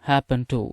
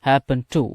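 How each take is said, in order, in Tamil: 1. 'happened' இல் d ஒலி விழுங்கப்படுகிறது. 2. 'happened' இல் d ஒலி விழுங்கப்படுகிறது.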